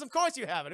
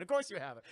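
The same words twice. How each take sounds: First: Louder, laughing "Of course you haven't"; a scornful laugh through the words; laughing mockery. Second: Said in the usual way. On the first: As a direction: laugh it out at the guard. Mocking the guard, then repeating it.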